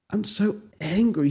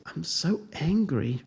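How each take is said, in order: First: Kindly "angry". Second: "I'm so angry" said softly and slowly, with no heat; calm, quiet, slow "angry". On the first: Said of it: "in a tone that was quite kind". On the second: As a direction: murmur it, slow and soft, no anger at all. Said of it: "Again he said". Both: A narrator's reading.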